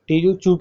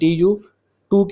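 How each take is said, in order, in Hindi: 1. इस सिलेबल की शुरुआत ch की आवाज़ से होती है। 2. इस सिलेबल की शुरुआत t की आवाज़ से होती है। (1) "टी यू चू के साथ आपने इसे प्रोनाउंस करना है" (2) "टी यू टू के बजाय"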